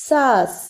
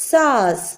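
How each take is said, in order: The two takes are said the same way.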